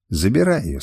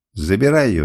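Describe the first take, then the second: First: Said in the usual way. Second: Mild explosive order; angry outburst. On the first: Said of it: "сказала Табу". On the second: A narrator's reading. Master orders rival to take her, exploding. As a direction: snap it out with a touch of anger. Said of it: "взорвался я".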